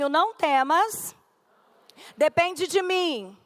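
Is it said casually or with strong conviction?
casually. It is said in a plain, casual way.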